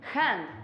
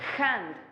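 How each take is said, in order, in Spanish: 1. La h es un raspado áspero y gutural. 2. La h es un raspado áspero y gutural.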